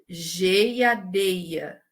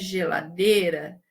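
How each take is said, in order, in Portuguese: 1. O L e o R se tornam semivogais. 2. O L e o R são consoantes plenas.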